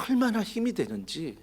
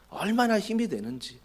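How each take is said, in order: Both takes have the same delivery.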